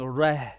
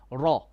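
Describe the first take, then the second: First: The r is light, with a thin mouth. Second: The r is heavy, with a full mouth. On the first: The speaker calls it wrong. "you're saying rah" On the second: The speaker calls it right. "make your ra heavy"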